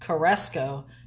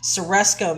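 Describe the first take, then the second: First: The first sound is a hard K. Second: The first sound is an S. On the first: The speaker calls it wrong. "Caresco doesn't sound right" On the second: The speaker calls it right. "that first C is really pronounced as an S"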